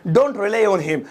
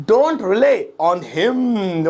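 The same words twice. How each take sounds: First: Said in the usual way. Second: Very slow, words drawn right out; slow model repeat. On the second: Shown as a demonstration. Teacher models the English phrase for students, slow and stretched. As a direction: stretch each word, holding the final "him।".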